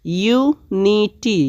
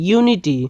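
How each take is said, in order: First: unity slowly split as ইউ, নি, টি; in three parts. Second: Said in the usual way. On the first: Shown as a demonstration. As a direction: stretch unity syllable by syllable. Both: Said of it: "তিন ভাগে ভাগ করেছি".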